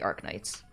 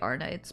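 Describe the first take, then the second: First: The k sound after 'Ar' is pronounced. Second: The k sound after 'Ar' is left out. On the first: "it's definitely supposed to be Arknights" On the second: "the K in Arc is silent"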